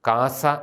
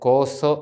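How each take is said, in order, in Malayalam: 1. ഈ വാക്ക് തുറന്ന a സ്വരങ്ങളോടെയാണ് പറയുന്നത്. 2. ഈ വാക്ക് വൃത്താകൃതിയിലുള്ള o സ്വരങ്ങളോടെയാണ് പറയുന്നത്. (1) "ഈസ്റ്റ് സിറിയാക്കിലെ പൗരസ്ത്യ സുറിയാനി ഉച്ചാരണത്തിലാണ് നമ്മളത് പരിചയിച്ച് പറയുന്നത്" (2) "നമ്മുടെ സുറിയാനിയിൽ ശരിയായിട്ടത് കോസോ എന്നാണ്"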